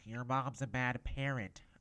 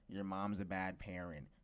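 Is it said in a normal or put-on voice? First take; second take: put-on; normal. First: It is said in a put-on teacher's voice. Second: It is said in the speaker's normal voice.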